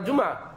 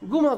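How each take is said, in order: First: It begins with a j sound, standard Arabic. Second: It begins with a hard g, Egyptian style.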